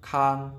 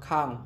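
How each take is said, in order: First: The syllable is said on a level mid tone. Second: The syllable is said with a falling tone. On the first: "เสียงสามัญ" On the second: "เสียงโท"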